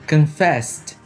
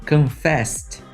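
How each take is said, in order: No difference in how they are said.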